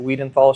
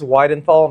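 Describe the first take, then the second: First: The first syllable sounds like 'wee'. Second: The first syllable sounds like 'why'. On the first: The speaker calls it wrong. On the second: The speaker calls it right. "last name's"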